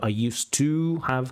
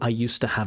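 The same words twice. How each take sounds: First: The word 'to' is said in full. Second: The word 'to' is reduced and weak. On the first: The speaker calls it wrong. "instead of" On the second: The speaker calls it right. "the most natural is"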